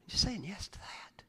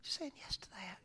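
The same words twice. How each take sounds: First: Whispered, intimate; hushed invitation. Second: Even fainter whisper; barely breathed; softer whisper. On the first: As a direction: breathe it out softly. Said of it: "repeated as whisper". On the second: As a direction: let it fade to almost nothing. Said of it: "repeated softer whisper". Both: Shown as a demonstration.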